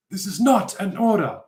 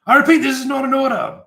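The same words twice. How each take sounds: First: Dramatic repeat. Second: High, loud commanding proclamation; dramatic shout. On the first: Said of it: "kind of a comedy moment". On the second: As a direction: proclaim it to stun the room. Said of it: "everyone's kinda shocked". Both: Acted.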